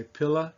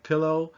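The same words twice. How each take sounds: First: Pilla, ending in a lazy uh; Southern shortcut vowel. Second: Said in the usual way. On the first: Shown as a demonstration. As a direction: reduce the end of pilla to a schwa. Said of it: "like from the South, say pilla". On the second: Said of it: "instead of pillow".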